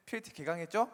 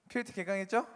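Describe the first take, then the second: No difference in how they are said.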